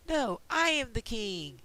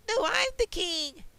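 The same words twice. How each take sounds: First: Slow, stubborn king stressing I; the first king digs in, slowly; first king insisting. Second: Much higher, louder rival king's retort. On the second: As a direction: snap back as the second claimant to the throne. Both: Acted. They're having their battle for the throne.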